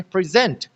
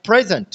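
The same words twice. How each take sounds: First: present said pri-ZENT; present as pri-ZENT, first syllable weak; stress on second syllable. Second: present said PREZ-ent; present as PREZ-ent, second syllable weak; stress on first syllable. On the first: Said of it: "जो second syllable है". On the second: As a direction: punch the first syllable of present, then fall. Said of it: "जो first syllable है". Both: Shown as a demonstration.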